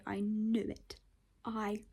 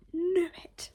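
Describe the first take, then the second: First: Hushed whisper on knew; voicelessly whispered "I knew it"; triumphant but whispered. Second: Excited triumph, pitch jumping. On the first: Whisper vs outburst. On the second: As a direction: blurt out "knew it" in triumph. Triumphant outburst. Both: Real, not acted.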